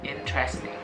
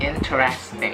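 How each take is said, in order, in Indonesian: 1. Kata ini diucapkan dengan tiga suku kata. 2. Kata ini diucapkan dengan empat suku kata. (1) "hanya ada tiga uh, syllable" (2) "banyak uh, orang yang pengucapannya interesting"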